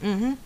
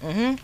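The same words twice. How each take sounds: The two takes are said the same way.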